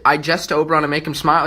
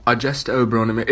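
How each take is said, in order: First: Said in the usual way. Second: Shakespeare line in a British accent; lightly put-on British accent, lower than usual. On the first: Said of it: "it just sounds better". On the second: Shown as a demonstration. Student showing why the line sounds better accented, British accent.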